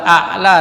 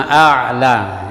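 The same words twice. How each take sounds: First: A'la with a quick glottal stop; hamzah for ain. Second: A'la with a voiced mid-throat ain. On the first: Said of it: "bukan hamzah dengan hamzah". (a'la dibaca dengan dua hamzah) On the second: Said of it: "hamzah dengan ain". (a'la, hamzah lalu ain) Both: Shown as a demonstration.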